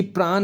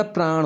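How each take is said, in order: First: प्राण ending in plain dental n; wrong dental n. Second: प्राण ending in a curled-back ṇ; correct retroflex n. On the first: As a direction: say प्राण with the tongue forward on n. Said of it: "नहीं होता". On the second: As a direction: curl the tongue to end प्राण. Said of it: "होता है". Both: Shown as a demonstration.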